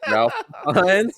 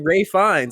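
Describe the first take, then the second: First: The first name is said as Ralph. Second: The first name is said as Ray. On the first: The name is read the way it is spelled. "because his name is spelled like Ralph, I thought that his name was Ralph Fiennes" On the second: The name is said the way other people say it. "I had heard people say Ray Fiennes"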